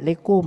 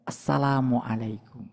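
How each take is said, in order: First: Only a clipped last part of the greeting is said. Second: The whole greeting is said fully and clearly. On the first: The greeting is careless and not felt. The speaker calls it wrong. "jangan umpamanya lekum, yang gitu aja itu, jangan itu" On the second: The greeting is meant sincerely. The speaker calls it right. "biasakan mengucapkan salam dengan tulus"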